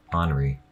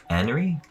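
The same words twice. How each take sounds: First: "Henri" as AHN-ree, falling lower; open-AH Henri. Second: "Henri" as HEN-ree with a flat A, like "an", rising; hard-A Henri. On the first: Streamer trying out a name, "Henri" as AHN-ree, lower and falling. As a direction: say "Henri" with an open "ah" first vowel, settled. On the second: Streamer trying out a name, "Henri" with the A of "can", as a question. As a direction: say "Henri" to rhyme its first syllable with "Dan", questioning. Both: Shown as a demonstration. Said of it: "how I say it in the British voice".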